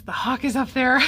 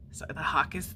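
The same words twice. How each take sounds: First: Louder and higher, pointing something out; sudden thrill at spotting the bird; excited call-out. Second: Said in the usual way. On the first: Real, not acted. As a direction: call out the hawk with real excitement.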